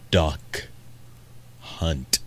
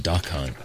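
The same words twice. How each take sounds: First: The words are said with crisp, careful articulation. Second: The words are said quickly with loose articulation. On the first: The speaker calls it right. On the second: The speaker calls it wrong.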